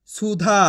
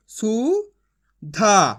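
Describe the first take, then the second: First: Said in the usual way. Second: Sounding out. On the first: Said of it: "तो मिलके बन जाएगा". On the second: Shown as a demonstration. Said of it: "मैं किस तरीके से एक अक्षर का उच्चारण करके".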